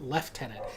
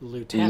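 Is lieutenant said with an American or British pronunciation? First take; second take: British; American. First: It begins with a 'lef' sound, with f. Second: It begins with a 'loo' sound, no f. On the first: The speaker calls it wrong. "the British have to fuck it up and call it lieutenant" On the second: The speaker calls it right. "Americans say lieutenant because it's spelled lieutenant"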